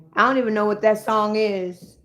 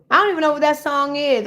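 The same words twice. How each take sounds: First: Said in the usual way. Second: Exasperated repeat. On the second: Real, not acted. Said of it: "repeated higher, faster".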